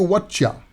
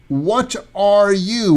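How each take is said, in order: First: The words blend into one reduced word. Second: Each word is pronounced fully and separately.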